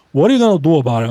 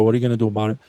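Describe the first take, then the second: First: Hammed-up playground bully; mock tough guy. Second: Said in the usual way. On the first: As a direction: taunt it louder, chest out. Mock tough taunt at viewers.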